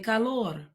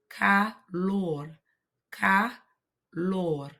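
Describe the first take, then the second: First: Said in the usual way. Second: "calor" broken in two, "ca... lor"; syllable by syllable. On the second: Shown as a demonstration. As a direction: pause between the syllables of "calor". Teacher splits word for learners.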